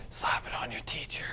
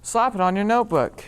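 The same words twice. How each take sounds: First: Sneaky whispered aside; whispering. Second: Loud, punchy sales line. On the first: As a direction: whisper it like a secret. Whispered commercial punchline. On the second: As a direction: belt it like a pitchman. Commercial line before whisper. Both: Acted.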